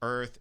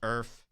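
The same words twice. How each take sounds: First: The word ends with a th sound. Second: The word ends with an f sound. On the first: "Instead of earth" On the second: "turned the T H's to F's"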